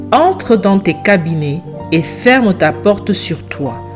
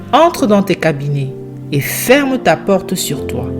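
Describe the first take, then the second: The two takes are said the same way.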